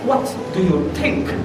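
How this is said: A British accent with forceful, spitting consonants. "Tapi kalau British"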